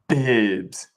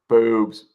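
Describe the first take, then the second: First: It is said in an announcer's voice. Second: It is said in a normal voice.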